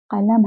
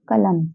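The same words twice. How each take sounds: First: कलम begun with q from deep in the throat; careful dotted-q कलम. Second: Said in the usual way. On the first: Shown as a demonstration. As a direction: say कलम with uvular Persian q, not k. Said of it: "जबकि ये क्या है?". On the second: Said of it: "पढ़ते हैं बिना बिंदी वाला का".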